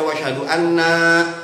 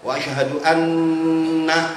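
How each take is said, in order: First: The final na is drawn out without nasal hum. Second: The final na is short with a nasal hum. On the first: The speaker calls it wrong. "nanya panjang berarti nunnya nggak gunnah" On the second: The speaker calls it right. "nanya jangan panjang karena nggak ada indikasi panjang"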